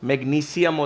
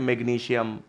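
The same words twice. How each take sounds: First: The consonant before '-ium' is an 's' sound. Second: The consonant before '-ium' is a 'sh' sound. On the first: The speaker calls it right. "स होता है इसमें" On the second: The speaker calls it wrong. "ये श नहीं बोलते हैं हम लोग, गलत बोलते हैं"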